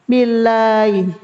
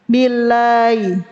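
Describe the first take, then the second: The two takes are said the same way.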